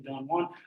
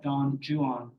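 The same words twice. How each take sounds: First: Juan is said with a Spanish-like pronunciation. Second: Juan is said with an anglicized pronunciation. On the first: This is the form the speaker still uses. "I still say Don Juan" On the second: This reflects the older English usage. "suggesting that was the English pronunciation at the time"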